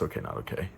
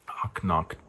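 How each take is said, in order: First: The title is said as three separate words. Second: The title is run together as one short word. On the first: The speaker calls it right. "But it's okay, not okay" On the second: The speaker calls it wrong. "is how I always pronounce it in my head"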